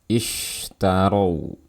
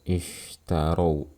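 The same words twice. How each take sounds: First: The sh sound is strong with pushed air. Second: The sh sound is weak with little air. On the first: The speaker calls it right. "dorong suaranya beserta dengan udara yang kita keluarkan" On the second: The speaker calls it wrong. "lemahnya suara pada huruf shin. Seperti ini suaranya"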